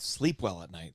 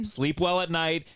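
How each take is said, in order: First: A hint of a low, soft, smug doctor; mock doctor. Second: Slow, drawn-out sarcastic quote; slow mocking echo. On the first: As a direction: quote the doctor low and hushed, mocking. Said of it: "the first doctor who said". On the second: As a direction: repeat it slowly to mock the advice. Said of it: "This is toxic positivity".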